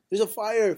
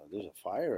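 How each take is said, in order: First: It is said in an alarmed, urgent voice. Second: It is said in a relaxed, casual voice. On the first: The news is an emergency. The speaker calls it right. "Every situation calls for a certain reaction" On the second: The news does not sound serious. The speaker calls it wrong. "You wouldn't do that"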